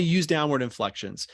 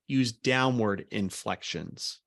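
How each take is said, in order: First: Said in the usual way. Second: Slow, decisive falling tune; downward inflection. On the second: Shown as a demonstration. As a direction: use downward inflections spoken slowly, each phrase falling firmly at the end.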